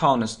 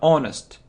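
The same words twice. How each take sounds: First: The word starts with an h sound. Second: The word starts with a vowel sound. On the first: The speaker calls it wrong. "Not honest, no" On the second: The speaker calls it right. "So we don't pronounce this sound"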